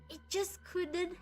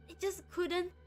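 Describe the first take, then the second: No difference in how they are said.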